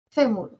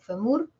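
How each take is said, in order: First: The stress is on the first syllable. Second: The stress is on the last syllable. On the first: The speaker calls it right. "¿En fe o en mur? ... en fe" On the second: The speaker calls it wrong. "Puedo desplazar acento, puedo cambiarlo, jugar con la palabra y decir femur"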